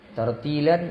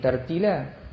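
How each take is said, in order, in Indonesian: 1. Kata ini berakhir dengan bunyi n. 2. Kata ini berakhir dengan vokal biasa. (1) "kita berhentikan, kita buang satu huruf" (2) "tartilan jadi tartila"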